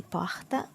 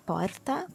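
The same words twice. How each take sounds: First: Porta with a throaty h for the R; Rio R. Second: Porta with a tapped R; Santos R. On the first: Teacher shows the Rio porta, h sound. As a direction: say porta as pohta. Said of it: "someone from Rio would say". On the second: Teacher shows her own porta, tapped R. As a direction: tap the R in porta. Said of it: "so I would say". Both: Shown as a demonstration.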